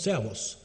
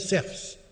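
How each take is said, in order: First: The final vowel is kept, ending in -os. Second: The final vowel is dropped, ending in -fs. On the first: This is a conservative pronunciation. "si c'est une prononciation conservatrice" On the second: This is an evolved pronunciation. "la prononciation est évoluée avec l'apocope de la voyelle la finale"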